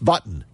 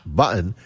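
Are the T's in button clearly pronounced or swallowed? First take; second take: clearly pronounced; swallowed. First: The T sound in button is crisp. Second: The T sound in button is softened. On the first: The speaker calls it right. "Pronounce the T's. It's button" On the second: The speaker calls it wrong. "It's not button"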